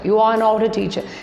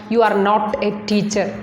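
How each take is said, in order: First: The word 'not' is reduced to a light t. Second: The word 'not' is said fully and clearly. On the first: The speaker calls it right. "So here also not means t" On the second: The speaker calls it wrong. "We usually Malayalis uh, say not"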